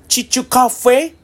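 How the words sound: It is said with an English-like foreign accent. "外国の人が言うとこんな感じでした"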